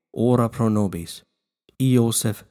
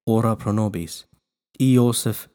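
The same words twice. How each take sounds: The two takes are said the same way.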